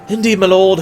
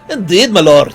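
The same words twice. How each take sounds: First: It is said in a plain, ordinary voice. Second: It is said in a put-on dwarvish accent. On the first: "I need to come up with a voice for her" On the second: "we'll do a dwarvish accent for her"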